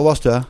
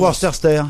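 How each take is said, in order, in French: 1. La syllabe du milieu est muette. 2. La syllabe du milieu est prononcée. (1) "faut dire Worcester" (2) "Il faut pas dire Worcester"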